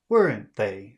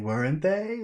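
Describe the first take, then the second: First: It sounds confident, like a statement. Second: It sounds unsure, like a real question. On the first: The speaker already believes it is true. The speaker calls it right. "Say it like that" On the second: The speaker does not know and wants an answer. The speaker calls it wrong. "Like, I don't know. You tell me"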